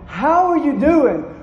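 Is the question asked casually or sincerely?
sincerely. It is asked earnestly, with real concern.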